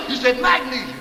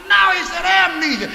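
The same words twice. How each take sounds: First: Magnesia said where amnesia is meant; stubborn magnesia; wrong word magnesia. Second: Amnesia set right, firm on No; patient correction to amnesia; correcting to amnesia. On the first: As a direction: insist on magnesia, like the mix-up is right. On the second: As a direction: correct him, leaning on amnesia. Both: Retold or imitated.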